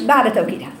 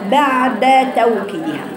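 First: The vowel after the d is clipped short. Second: The vowel after the d is fully voiced. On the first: The speaker calls it wrong. "ما تختلسيش الفتحه" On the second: The speaker calls it right. "عشان تبقى فتحتين كاملتين"

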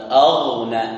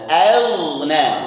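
First: The opening hamzah is pronounced heavy and thick. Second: The opening hamzah is light, the gh thick. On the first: The speaker calls it wrong. "Hamzah tebal? Tidak. Bukan aghna" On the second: The speaker calls it right. "Hamzahnya tipis, ghainnya tebal"

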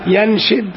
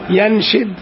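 First: The vowel after the sh sound is i. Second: The vowel after the sh sound is i.

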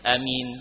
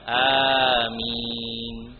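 First: The first vowel is kept short. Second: The first vowel is drawn out long. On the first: "Ada yang membaca dengan bacaan pendek" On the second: "itu mat panjang, hamzanya panjang"

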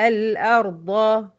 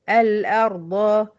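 The two takes are said the same way.

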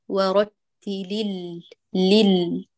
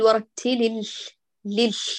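First: The L sound is fully voiced without breath. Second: The L sound is breathy with air escaping. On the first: The speaker calls it right. "ورتل لل بدون جريان نفس" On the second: The speaker calls it wrong. "لا نقول ورتل لل، لا تهمسي"

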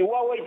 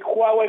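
First: It begins without the raspy J sound. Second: It begins with a raspy J sound, like Juan. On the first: It follows the international pronunciation. "es una pronunciación internacional" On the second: It follows the Chinese-based pronunciation. "una pronunciación más basada en la cultura china... casi como si era Juan, con la J de Huawei"

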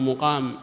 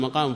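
First: The first vowel is u: muqam. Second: The first vowel is a: maqam. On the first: The noun comes from a four-letter verb. "بالضم" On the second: The noun comes from a three-letter verb. "إذا كان من الثلاثي"

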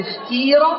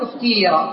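First: The vowel after the t is a plain i. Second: The vowel after the t is tinged with u. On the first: "لك أن تقول اختير" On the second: "يعني بإشمام"

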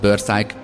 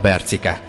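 First: It is said as two syllables ending in 'szájk'. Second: It is said as three syllables ending in 'cike'. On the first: The name was misread for weeks. The speaker calls it wrong. "ez egyedül szerintem volt Börszájk hetekig" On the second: The name is read as its owner says it. The speaker calls it right. "föl nem hívták a fülem hallatára Bercikét"

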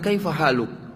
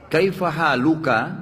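First: The phrase ends on a consonant, vowel dropped. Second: The phrase ends with a final vowel sound. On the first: The speaker stops at this point. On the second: The sentence may continue after this word.

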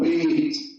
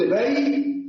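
First: A long 'ee' vowel comes before the t. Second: An 'ay' diphthong comes before the t. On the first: This is the everyday colloquial pronunciation. "كما ينطق العوام يوم أو بيت، كسرت ما قبل الياء" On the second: This is the classical pronunciation with a soft letter. "إذا قلت بيت فأنا فتحت ما قبل الياء"

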